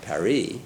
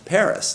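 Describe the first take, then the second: First: It is pronounced the French way. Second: It is pronounced the English way. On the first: "not Paris" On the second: "we all call Paris, Paris"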